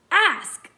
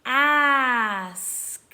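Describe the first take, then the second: First: Said in the usual way. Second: "Ask" stretched out, each sound held; sounded out slowly. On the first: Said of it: "put it together to read the word". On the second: Shown as a demonstration. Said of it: "Let's read the sounds".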